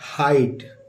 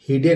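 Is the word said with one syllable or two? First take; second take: one; two. First: It is said as one syllable with 'eye'. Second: It is read letter by letter as two syllables. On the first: The speaker calls it right. "इसको पढ़ेंगे हाइट" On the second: The speaker calls it wrong. "इसको हम हिडे नहीं पढ़ेंगे"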